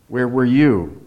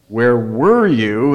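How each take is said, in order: First: The stress falls on the word you. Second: The stress falls on the word were. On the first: The speaker was there but the other person was not. "Gives another different impression" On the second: The speaker is irritated at being kept waiting. "Emphasize the second one"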